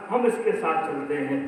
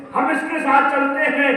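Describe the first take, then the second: First: Said in the usual way. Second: हम इसके साथ चलते हैं again, higher and louder, stress on साथ; emphatic repeat. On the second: Acted. Preacher repeating the Prophet's reassurance to the old woman, raised. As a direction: lift the promise the second time.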